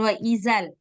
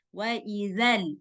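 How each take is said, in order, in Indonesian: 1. Bunyi dh diucapkan berdesis seperti z. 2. Bunyi dh tidak berdesis. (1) "Jangan wa izal" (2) "Nah, gitu"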